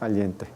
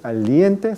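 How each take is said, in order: First: The i is brief like a semivowel. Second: The i is drawn out like a full vowel. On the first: The speaker calls it right. "La pronunciación de I debe ser mucho más breve que en la E" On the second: The speaker calls it wrong. "No es aliente"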